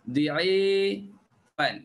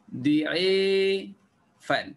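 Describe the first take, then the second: The two takes are said the same way.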